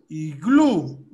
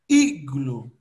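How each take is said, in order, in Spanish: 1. El acento está en la segunda sílaba. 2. El acento está en la primera sílaba. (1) "Iglú es en español. La fuerza de voz está en glú" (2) "En cambio en inglés es al revés. La fuerza de voz está en la I"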